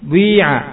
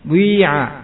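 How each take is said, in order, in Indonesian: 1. Bunyi membulat seperti u menyatu dengan vokal. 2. Bunyi membulat seperti u menyatu dengan vokal.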